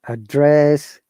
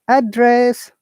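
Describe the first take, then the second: First: The pitch starts low and rises. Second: The pitch starts high and falls. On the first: It is used as a verb. "the verb is just opposite, falling intonation to upper intonation" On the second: It is used as a noun. "noun, upper, you know, intonation to falling intonation"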